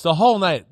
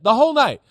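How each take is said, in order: First: Said in the usual way. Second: "whole" punched higher and louder, falling on "night"; stressed repeat. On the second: Shown as a demonstration. Analyst hammering home that nothing scared the Rams, stress on "whole". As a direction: lean hard on "whole", let "night" drop.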